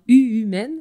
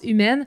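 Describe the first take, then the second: First: An extra 'u' sound comes before 'Humaine'. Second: The name starts directly with 'Humaine'. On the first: The speaker calls it wrong. "donc, U-Humaine, mais ça se prononce" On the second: The speaker calls it right. "ça se prononce Humaine"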